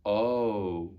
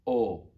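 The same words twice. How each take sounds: First: Long O sliding into oo; English gliding O. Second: Steady round O without glide; pure Latin O. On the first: Teacher contrasting for pupils watching the mouth, gliding English O. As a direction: say "O" as in English, lips closing. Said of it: "You see the difference?". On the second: Teacher contrasting for pupils watching the mouth, pure O. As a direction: say "O" holding the mouth still. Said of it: "Look at my mouth very closely". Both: Shown as a demonstration.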